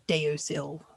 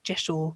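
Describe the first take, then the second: First: It begins 'dee-oh', with three syllables. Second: It begins with a 'j' sound, two syllables. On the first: The speaker calls it wrong. "it is not pronounced" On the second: The speaker calls it right. "most people in the pagan world pronounce it"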